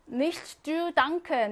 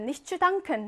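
First: "Nicht zu danken" said very slowly, each word drawn out and spaced; slow teaching read. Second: Said in the usual way. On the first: Shown as a demonstration. Teacher modelling the German phrase for Korean learners, very slow.

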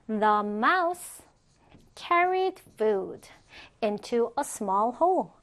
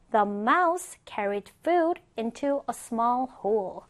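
First: Slow, with clear pauses between phrases. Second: Said in the usual way. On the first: Shown as a demonstration. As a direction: model it slowly, chunk by chunk for learners. Teacher models sentence piece by piece.

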